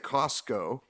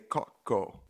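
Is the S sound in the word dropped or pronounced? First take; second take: pronounced; dropped. First: The S sound is clearly pronounced. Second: The S sound is dropped. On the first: This is not how it is said locally. "they don't say Costco" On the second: This is how it is said locally. "They say Coco. ... The S is silent"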